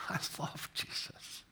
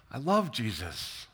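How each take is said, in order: First: Whispered, much softer, all breath; hushed, private confession; heartfelt whisper. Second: Said in the usual way. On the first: Real, not acted. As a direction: let it out as a moved whisper. Repeats it, moved, in a whisper.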